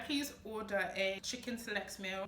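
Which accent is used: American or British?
British. It is spoken in a British accent. "In the U K, ... this is how I would order it"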